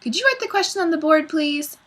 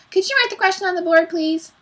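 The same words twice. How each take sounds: First: Put-on high, quick child-like pupil voice; pupil's polite request. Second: High, fast mimicking whine; mocking. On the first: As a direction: ask the teacher in a high little voice. Pupil's polite request, later mocked. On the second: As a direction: parrot the pupil's question mockingly. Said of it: "In a mocking voice". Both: A narrator's reading.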